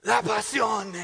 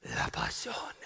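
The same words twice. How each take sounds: First: Put-on slow, loud, high foreign-accented cry; triumphant proclamation. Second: Put-on low, hushed foreign-accented whisper; dramatic whisper. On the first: Husband's final punchline to piano-teacher wife, loudly proclaimed. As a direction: proclaim it as the grand mock climax. Final climax of building mock speech. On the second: Husband's second mock speech to wife ends, whispered. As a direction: whisper the answer like a secret revelation.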